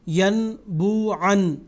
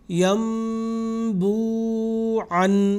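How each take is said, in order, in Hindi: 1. b से पहले n की आवाज़ आती है। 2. b से पहले m की आवाज़ आती है। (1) "आप ऐसा नहीं पढ़ेंगे ... ये गलत होगा" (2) "बल्कि पढ़ेंगे"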